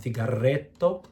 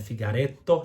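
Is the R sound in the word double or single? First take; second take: double; single. First: The R is overpronounced as a double roll. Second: The R is a single light tap. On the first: The speaker calls it wrong. "not figaretto" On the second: The speaker calls it right. "One R, it's between vowels"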